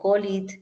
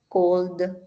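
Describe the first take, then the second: First: The ending is pronounced as an extra 'id' syllable. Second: The ending is a plain d sound, no extra syllable. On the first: The speaker calls it wrong. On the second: The speaker calls it right.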